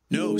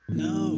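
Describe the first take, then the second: First: It is said at normal loudness. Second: It is said more quietly.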